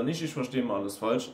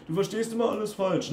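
First: Said in the usual way. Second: High-pitched mocking accusation; mocking stock phrase. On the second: Coach mimics critics blaming him for misunderstanding, mocking. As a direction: parrot the critic in a raised, nagging voice. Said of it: "Das sind dann diese Standardsprüche".

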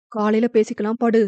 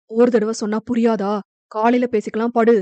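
First: Said in the usual way. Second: "காலையில பேசிக்கலாம்" pressed out in a hot, hard voice; fiery anger. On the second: Acted. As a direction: shut her down with fire in the voice. ("காலையில பேசிக்கலாம்" கோபத் தீயுடன்) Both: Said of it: "குரலில் அப்படி ஒரு தீ".

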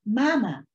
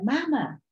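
First: A little louder, tugging for attention; small boy's insistent call; child calling out. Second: Much higher, more insistent call; higher, urgent cry for mother; child calling again. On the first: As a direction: call for mother to notice. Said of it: "Pee-wee tugged at his mother's skirt". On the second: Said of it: "Pee-wee tried again". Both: A narrator's reading.

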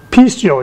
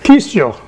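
First: Pistio said PEES-tee-oh with an aspirated p, stress on PEES; Greek pronunciation. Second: Pistio repeated as PEES-toh, stress on PEES; Greek pronunciation. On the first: Preacher showing the church how to say pistio, PEES-tee-oh. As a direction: teach the word pistio carefully, PEES-tee-oh. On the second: Preacher repeating Pistio so the church can copy it. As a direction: repeat Pistio slowly for the listeners. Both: Shown as a demonstration. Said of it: "You gotta watch how you say this one".

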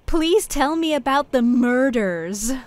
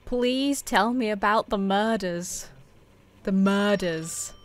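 First: Slow, higher, exaggerated American accent; drawn-out American R's in "murders", pitched up; put-on American accent. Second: Slow, soft, careful request; careful enunciation. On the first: Shown as a demonstration. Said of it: "I have to say murders in an American accent". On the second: Real, not acted. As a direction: spell it out slowly and softly for a voice recognizer. Repeating for a voice-controlled game.

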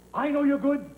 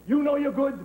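First: "I know you're good" pushed with conviction; firm, raised "I know you're good"; pep-talk emphasis. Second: "You" hit hard at the start; "You" louder than the rest, rallying; stress on YOU. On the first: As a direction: press "I know you're good" as your own belief. Pep talk, contrasted with next line. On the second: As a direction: punch the word "You". Pep talk, contrasted with previous line. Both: Acted.

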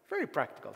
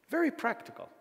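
First: Said in the usual way. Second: "Very" hit high and falling hard; emphatic. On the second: Shown as a demonstration. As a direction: stress "Very" up high and let it drop.

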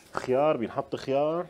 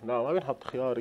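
First: خيار، بينحط خيار? asked with a questioning rise at the end; puzzling aloud over whether خيار goes in; wondering question. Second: لا ما بينحط خيار said softly with a settled falling close on بينحط; firm answer. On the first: Cook asking herself about cucumber, rising question. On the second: Cook answering her own question, quiet settled fall. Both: Acted.

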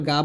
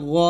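First: গা with a thin, open "aa"; wrong thin vowel. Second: গ thick, with a rounded "o" vowel; heavy গ. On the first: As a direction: say গা lightly, not thickened. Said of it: "গা বলা যাবে না". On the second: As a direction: thicken গ instead of an open "aa". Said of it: "সব সময় মোটা করে উচ্চারণ". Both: Shown as a demonstration.

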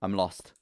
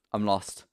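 Both takes have the same delivery.

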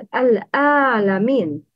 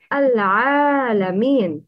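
First: "al-alamin" with hamza in place of ayn; wrong ayn. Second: "Al-alamin" with a true throaty ayn; correct ayn. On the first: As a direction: mispronounce "al-alamin" with a plain glottal stop for ayn. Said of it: "The wrong is". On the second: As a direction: say "Al-alamin" slowly, ayn rather than glottal stop. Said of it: "Avoid pronouncing ayn same as hamza". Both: Shown as a demonstration.

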